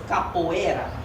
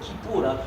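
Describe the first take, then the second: First: The name is said as capoeira. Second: The name is said as kipura. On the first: This is how others say the name. The speaker calls it wrong. "which they mispronounce as capoeira" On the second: This is the original name. The speaker calls it right. "the authentic practice of Kipura"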